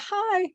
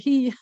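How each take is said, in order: First: The vowel sounds like the English word 'hi'. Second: The vowel sounds like the English word 'he'. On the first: The speaker calls it wrong. "It's not a hi" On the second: The speaker calls it right. "it's a he"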